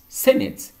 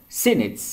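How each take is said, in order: The two takes are said the same way.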